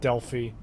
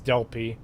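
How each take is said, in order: First: The middle consonant is an f sound. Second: The middle consonant is a plain p sound. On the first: The speaker calls it wrong. "not Delphi" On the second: The speaker calls it right. "there's no H there, so it is Delphi"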